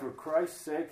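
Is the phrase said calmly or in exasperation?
calmly. It is read calmly as part of scripture. It refers reverently to Christ. The speaker calls it right. "And you got to read it that way"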